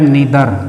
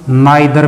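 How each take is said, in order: First: The first vowel sounds like 'ee'. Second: The first vowel sounds like 'eye'. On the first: "ये भी बोला जाता है नीदर" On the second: "इसको हम नाइदर भी बोल सकते हैं"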